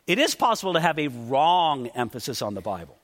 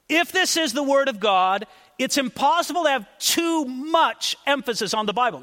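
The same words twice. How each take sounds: First: Lower-pitched, with weight on "is" and "wrong"; careful qualification. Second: Deliberate weight on "too much"; careful emphasis. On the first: Preacher qualifying his point to the congregation, lower, stressing "wrong". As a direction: drop the pitch and lean on "wrong". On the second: Preacher repeating his point to the congregation, carefully stressing "too much". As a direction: stress "too much", setting each of the two words apart. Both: Real, not acted. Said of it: "trying to choose my words carefully".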